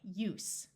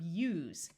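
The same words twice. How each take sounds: First: The word ends with an S sound. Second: The word ends with a Z sound. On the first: It is the noun. "Here we want the noun" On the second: It is the verb. "Using the Z sound, it is the verb use"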